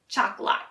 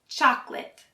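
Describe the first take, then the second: First: The last syllable sounds like 'lot'. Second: The last syllable sounds like 'lit'. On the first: The speaker calls it wrong. "we don't say" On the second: The speaker calls it right. "like lit and not lot"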